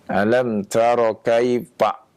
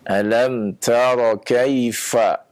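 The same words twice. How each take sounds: First: The f is made with both lips, like p. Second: The f is made with lower lip and upper teeth. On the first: The speaker calls it wrong. "Jangan alam tara kaifa. Nah, ini pak, nah ini keliru ya. Karena itu dari kedua bibir" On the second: The speaker calls it right. "ini dari ya ujung gigi seri atas bertemu dengan perut bibir yang bawah"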